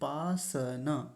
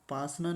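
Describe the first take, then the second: First: The s sound is said as a full consonant. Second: The s sound is said as a half consonant. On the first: The speaker calls it right. "स पूरा है" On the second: The speaker calls it wrong. "पासना नहीं"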